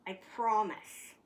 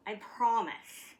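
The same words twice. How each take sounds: The two takes are said the same way.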